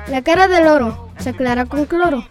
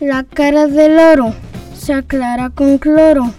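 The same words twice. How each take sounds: First: It is said at a faster pace. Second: It is said at a slower pace.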